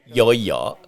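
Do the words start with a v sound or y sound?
y sound. Both words start with a y sound. This is the local Saigon pronunciation. "becomes yo yo"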